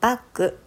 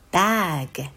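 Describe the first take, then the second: First: The consonants are weak, in a Japanese style. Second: The consonants are released clearly and strongly. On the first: The speaker calls it wrong. "バッグじゃなくて" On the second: The speaker calls it right. "子音がしっかり出るように"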